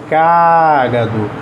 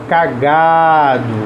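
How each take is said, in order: First: The stress is on the first syllable. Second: The stress is on the second syllable.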